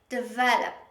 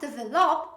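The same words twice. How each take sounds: First: The O in the last syllable is reduced. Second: The O in the last syllable is fully pronounced. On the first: The speaker calls it right. "So stress is on the V" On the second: The speaker calls it wrong. "Don't pronounce the O sound in this word"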